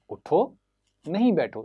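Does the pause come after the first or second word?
first. The pause comes after the first word.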